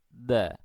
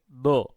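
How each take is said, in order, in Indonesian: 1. Huruf itu diucapkan ringan dan tipis. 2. Huruf itu diucapkan tebal dan berat. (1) "tipis saja" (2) "kita tidak boleh mengatakan begini"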